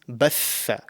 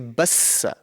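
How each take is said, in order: First: The middle consonant is a th sound. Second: The middle consonant is an s sound. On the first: The speaker calls it right. "one word that we can use as an example is batha" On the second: The speaker calls it wrong. "some people may pronounce it wrong and say bassa as the Sin"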